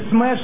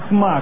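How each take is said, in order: First: The vowel sounds like the e in bed. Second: The vowel sounds like the a in father. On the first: The speaker calls it wrong. "правильно не смэш" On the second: The speaker calls it right. "а смаш"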